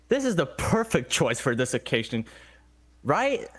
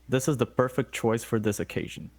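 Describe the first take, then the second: First: It is said in a sarcastic tone. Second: It is said sincerely, in a normal tone.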